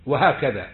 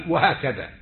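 The two takes are said the same way.

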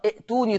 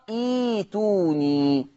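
First: ائتوني with a short i and glottal stop; hamza sounded. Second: ايتوني slow with a long ee, no stop; hamza turned to yaa. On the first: Teacher recapping for students, ائتوني with hamza sounded. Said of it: "هتبدل همزة القطع". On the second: Teacher showing how it is read, long smooth ايتوني. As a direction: stretch ايتوني into ee-tuu-nii. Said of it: "هكذا". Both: Shown as a demonstration.

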